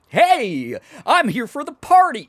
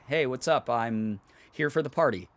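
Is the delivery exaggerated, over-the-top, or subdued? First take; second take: over-the-top; subdued. First: It is said in a wildly over-the-top way. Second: It is said in a restrained, subdued way.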